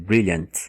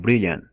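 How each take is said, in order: First: The final T sound is clearly pronounced. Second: The final T sound is dropped. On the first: The speaker calls it wrong. "Eles não chegam a dizer brilliant" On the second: The speaker calls it right. "eles falam brilliant"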